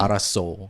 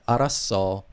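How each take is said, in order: First: The final vowel is a rounded 'o' sound. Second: The final vowel is an open 'eo' sound. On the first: The speaker calls it wrong. "It's not araso. Like so is different" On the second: The speaker calls it right. "they have E O. So it's like araso"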